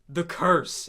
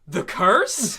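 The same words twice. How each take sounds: First: Said in the usual way. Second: "The curse?" with a rising question tune, louder, with a laugh; mock puzzled echo. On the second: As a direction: echo "The curse?" as if hearing it for the first time. Mocking the echoing character.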